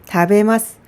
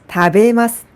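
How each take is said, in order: The two takes are said the same way.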